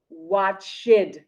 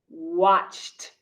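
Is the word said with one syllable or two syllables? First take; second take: two syllables; one syllable. First: The ending is said as an extra syllable. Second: The word is said as one syllable. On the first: The speaker calls it wrong. "It is not watched" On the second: The speaker calls it right. "It is watched"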